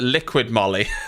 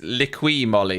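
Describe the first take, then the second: First: The first word ends with a d sound. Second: The first word ends without a d sound. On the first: The speaker calls it wrong. "I've been calling it liquid Molly, but it's not" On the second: The speaker calls it right. "It's liqui Molly, isn't it?"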